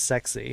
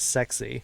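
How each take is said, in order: First: The acronym is pronounced like the word 'sexy'. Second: The same.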